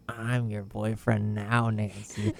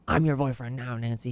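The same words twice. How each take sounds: First: It is said in a sinister, menacing way. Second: It is said in a light, non-menacing way.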